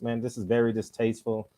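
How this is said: It is said in a mature, formal voice.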